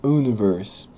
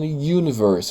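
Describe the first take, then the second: First: The word begins with a plain vowel sound. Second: The word begins with a y sound. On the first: The speaker calls it wrong. "eu não tô falando universe" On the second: The speaker calls it right. "O Y é uma consoante, então eu tô falando universe"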